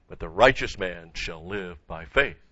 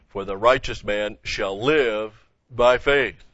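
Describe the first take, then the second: First: Weight put on "righteous" in the quoted verse; stress on RIGHTEOUS. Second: Slow, loud verse with "live" stretched; stress on LIVE. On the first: Preacher quoting Romans to show who shall live, stressing "righteous". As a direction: lean on "righteous", let the rest follow. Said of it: "the emphasis is on". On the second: Preacher reading Galatians on life after salvation, stretching "live". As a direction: hold "live" long, then set off "by faith". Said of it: "He puts the emphasis here on the living". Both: Shown as a demonstration.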